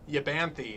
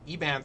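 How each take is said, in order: First: The name starts with a Y sound. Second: The name starts with a plain vowel sound. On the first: This is how the speaker always used to say the name. The speaker calls it wrong. "is the way that I would always pronounce that name" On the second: This is the newly learned way to say the name. The speaker calls it right. "I just learned how to pronounce about ten minutes ago"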